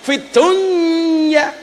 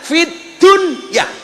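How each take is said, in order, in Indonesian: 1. Kedua kata itu menyatu menjadi satu bunyi. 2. Tiap kata dibaca dengan jelas dan terpisah. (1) "Harusnya idgham loh"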